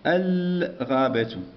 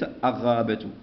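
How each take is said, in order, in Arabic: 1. صوت اللام مسموع بوضوح. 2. صوت اللام يندمج في الحرف الذي بعده. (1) "إذن هي قمرية، دائما قمرية فيها السكون" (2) "وليس الغابة"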